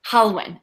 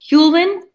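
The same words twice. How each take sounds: First: "Halwyn" said HAL-win, falling, settled; "Halwyn" repeated back carefully like Darwin; corrected name. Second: "Hulwin" said with a high rising hoo, unsure; "Hulwin" guessed as HOOL-win, asking; mispronounced name. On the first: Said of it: "it's like Darwin, but with a H". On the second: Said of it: "tell me how to pronounce your name". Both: Shown as a demonstration.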